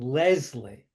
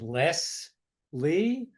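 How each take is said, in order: First: The middle consonant is a buzzing Z sound. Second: The middle consonant is a hissing S sound. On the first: "with a Z" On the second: "with an S"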